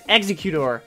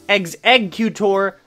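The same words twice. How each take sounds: First: The start sounds like the verb 'execute'. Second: The start sounds like the word 'egg'. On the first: The speaker calls it wrong. "I still hear Execute and Executor from time to time" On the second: The speaker calls it right. "It's Executor and Execute for a reason"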